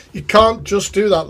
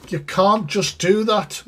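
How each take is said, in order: First: Laughing. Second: Said in the usual way. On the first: Real, not acted.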